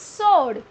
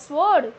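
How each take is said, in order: First: The w in sword is silent. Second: The w in sword is pronounced. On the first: The speaker calls it right. "W will remain silent" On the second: The speaker calls it wrong.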